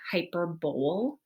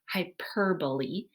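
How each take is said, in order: First: The stress falls away from the syllable per. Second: The stress falls on the syllable per. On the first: The speaker calls it wrong. "when you look at the word, you kind of think to yourself hyperbole" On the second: The speaker calls it right. "The emphasis is on the per"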